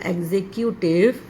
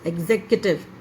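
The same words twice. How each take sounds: First: The 'cu' sound in the middle is long. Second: The 'cu' sound in the middle is short. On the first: The speaker calls it wrong. "It's not" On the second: The speaker calls it right. "सी यू की जो sound है वो थोड़ी छोटी आती है"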